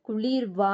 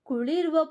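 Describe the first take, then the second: First: The consonant cluster is pressed hard. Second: The consonant cluster is said lightly. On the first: The speaker calls it wrong. "ಇಲ್ಲಿ ಕುಳಿರ್ವಾ ಅಂತ ಓದ್ತಿಲ್ಲ" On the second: The speaker calls it right. "ಕುಳಿರ್ವ ಭೂಗೋಳಂಗಳಲ್ಲಿ ಅಂತ ನಾವು ಓದ್ತಾ ಇದೀವಿ"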